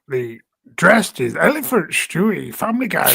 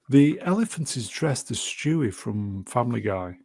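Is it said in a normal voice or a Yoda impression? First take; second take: Yoda impression; normal voice. First: It is said in a Yoda impression. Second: It is read in his normal voice.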